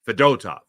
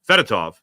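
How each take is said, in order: First: The second syllable sounds like 'dough'. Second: The second syllable does not sound like 'dough'. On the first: The speaker calls it right. "You got to get the dough in there" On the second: The speaker calls it wrong. "not Fedotov"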